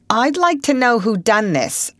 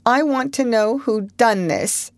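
First: Stern. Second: High, wavering demand; quavering. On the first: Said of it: "looking sternly". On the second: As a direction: let the voice quaver. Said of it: "she quavered". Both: A narrator's reading.

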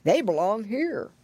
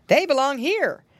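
First: Put-on old pig grandfather; slurred elderly character voice; Grandpa Squealer. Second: Lifted, clear rabbit uncle voice; lightly voiced visitor, higher pitched; Uncle Wiggily. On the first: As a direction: say it as the oldest pig of all. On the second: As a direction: say it high and plainly as the rabbit. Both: A narrator's reading. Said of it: "he said".

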